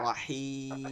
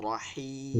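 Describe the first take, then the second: No difference in how they are said.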